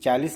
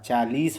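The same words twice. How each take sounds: First: The vowel in the last syllable is short. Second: The vowel in the last syllable is long. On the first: The speaker calls it wrong. "चालीस नहीं होता" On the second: The speaker calls it right. "चालीस होता है ... बड़ी की मात्रा लगाना है"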